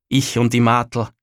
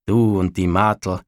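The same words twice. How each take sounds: First: Said in the usual way. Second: "Du und die Martl" repeated low and knowing, with a hint of innuendo; ambiguous tone. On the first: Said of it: "sagte der Bauer nach mit etwas zweideutigem Tone". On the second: A narrator's reading. Father echoes his son about the girl, with a sly, knowing tone. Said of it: "mit etwas zweideutigem Tone".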